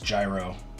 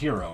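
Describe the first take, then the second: First: The word begins with a j sound. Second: The word begins with an h sound. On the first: The speaker calls it wrong. "I don't think it's pronounced gyro" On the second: The speaker calls it right. "It's a hero"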